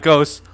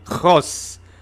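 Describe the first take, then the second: First: The first sound is a plain hard g. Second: The first sound is a throaty, rasping sound. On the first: The speaker calls it wrong. "not ghost" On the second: The speaker calls it right. "you gotta get the epiglottis working there"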